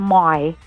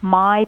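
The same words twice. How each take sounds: First: The vowel is stretched and broadened. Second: The vowel is plain and short.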